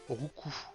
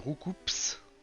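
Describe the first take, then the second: First: The final P and S are silent. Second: The final P and S are pronounced. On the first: The speaker calls it right. "il faut dire Roucou" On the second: The speaker calls it wrong. "tout le monde sur Terre dit Roucoups"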